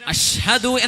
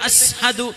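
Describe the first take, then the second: First: The middle consonant is an sh sound. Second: The middle consonant is an s sound. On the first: This is the intended form of the word. The speaker calls it right. "അഷ്ഹദു എന്ന് പറയേണ്ടിടത്ത്" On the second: The sh sound was hard for the speaker to produce. The speaker calls it wrong. "അസ്ഹദു എന്നായി പോകും"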